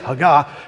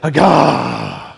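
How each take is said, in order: First: It is said plainly, without a Southern accent. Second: It is said with a Southern accent. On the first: The speaker calls it wrong. "you don't just say haggah" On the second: The speaker calls it right. "you got to get Southern with me"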